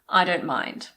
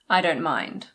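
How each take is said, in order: First: The T in "don't" is swallowed. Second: The T in "don't" is swallowed.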